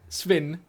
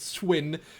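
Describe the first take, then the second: First: The second sound is like a v. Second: The second sound is like a w. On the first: "which is S V E N" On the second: "which in Afrikaans you'd spell S W E N"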